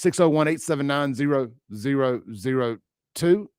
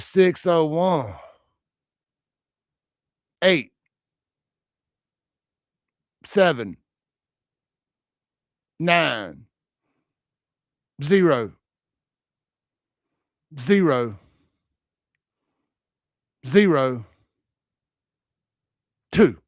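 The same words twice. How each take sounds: First: The number is said at a normal speed. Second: The number is said very slowly.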